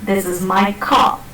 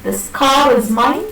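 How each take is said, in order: First: "car" at the end with no r; final car without r; r-less car. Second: Slow "car" with its r sounded into "is"; r in car pronounced; linking r. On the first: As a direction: drop the r of "car" at the full stop. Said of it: "it is not". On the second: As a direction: link the r of "car" to "is", slowly. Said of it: "The R is pronounced". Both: Shown as a demonstration.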